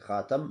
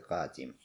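First: The second syllable has the vowel 'a'. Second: The second syllable has the vowel 'i'. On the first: "можно сказать хатам" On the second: "можно сказать хатим. Оба варианта правильные"

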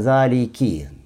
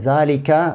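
First: The word ends with an 'i' vowel. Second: The word ends with an 'a' vowel. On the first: The speaker calls it right. "Буква «каф» с «кесрой»" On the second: The speaker calls it wrong. "не «залика»"

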